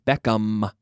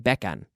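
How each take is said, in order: First: The word ends with an M sound. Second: The word ends with an N sound. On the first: The speaker calls it right. "It's an M. ... you have to close your lips" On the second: The speaker calls it wrong. "Spanish people say Beckham"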